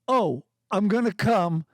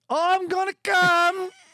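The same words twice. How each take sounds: First: It is read plainly in a normal voice. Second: It is read dramatically in a put-on voice.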